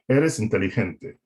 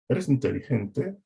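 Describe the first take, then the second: First: The voice falls at the end. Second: The voice rises at the end. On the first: It states a fact. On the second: It asks a question. "If someone asks you that"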